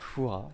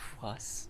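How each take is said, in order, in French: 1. Le mot finit sur une voyelle, pas de s. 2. Le mot se termine par un son s audible. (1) "Ça se dit bien" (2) "ça se dit pas"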